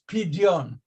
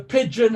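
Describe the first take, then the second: First: The middle consonant is a separate 'd' then 'y'. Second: The middle consonant is a single 'j' sound. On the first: The speaker calls it right. "It is not pigeon, it's Pidyon" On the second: The speaker calls it wrong.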